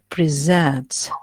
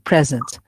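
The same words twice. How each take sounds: First: The stress falls on the second syllable. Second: The second syllable is not stressed. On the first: It is a verb. "here I focus on the second syllable" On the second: It is an adjective meaning not absent. "you don't stress any part, any syllable"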